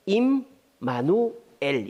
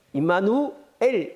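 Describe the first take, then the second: First: 임마누엘 said slowly as 임-마누-엘, a break after 임 and after 마누; split in three parts. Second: 임마누엘 said slowly as one run, without splitting it into parts; run together. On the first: (임마누엘을 임-마누-엘 세 번으로 끊어서) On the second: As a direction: read 임마누엘 slowly straight through as one word. (임마누엘을 끊지 않고 천천히 한 번에) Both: Shown as a demonstration. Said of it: "세 번으로 끊어야 돼요".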